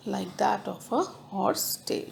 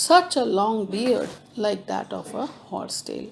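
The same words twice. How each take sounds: First: Breathy repeat under the breath; whispered. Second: Said in the usual way. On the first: Shown as a demonstration. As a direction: whisper the line to yourself. Teacher repeats line, then whispers it.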